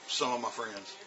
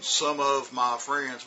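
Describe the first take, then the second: First: The words run together fast and reduced. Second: Every word is said fully and clearly. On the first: "we go ... it's real fast" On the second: "Instead of going"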